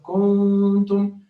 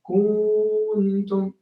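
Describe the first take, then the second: First: The nasal n sound is held long. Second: The vowel before n is held long. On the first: The speaker calls it right. "instead of kuntum" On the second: The speaker calls it wrong. "They make the fatha before it two harakat"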